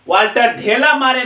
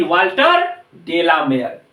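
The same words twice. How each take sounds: First: ढेला मारे like the Hindi words for throwing a clod; mispronounced ढेला मारे. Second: डेलामेयर as one name, "de-la-mair"; correct डेलामेयर. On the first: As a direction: say ढेला मारे with aspirated "dh", ending in "maare". (ढेला मारे में "ढ" और अंत में "मारे" बोलकर गलत उच्चारण) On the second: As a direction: say डेलामेयर with unaspirated "d", ending in "meyar". (डेलामेयर में "ड" और अंत में "मेयर" के साथ सही उच्चारण) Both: Shown as a demonstration. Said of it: "Walter ढेला मारे नहीं".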